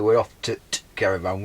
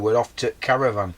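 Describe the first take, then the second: First: A short t sound comes before caravan. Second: No t sound comes before caravan. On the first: The speaker calls it wrong. "We wouldn't say" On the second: The speaker calls it right. "We would say"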